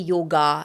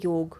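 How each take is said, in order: First: The word ends with a final vowel. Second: The word ends on the final consonant. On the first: This is how it is said in the south. "In down south, there'll be" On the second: This is how it is said in Hindi. "In Hindi, we say"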